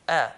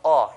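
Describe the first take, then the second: First: The vowel is said lightly with an empty mouth. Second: The vowel is said heavy with a full mouth. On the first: The speaker calls it right. "pronounced lightly with empty mouth" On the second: The speaker calls it wrong. "just like the huruf al-isti'la, the heavy letters"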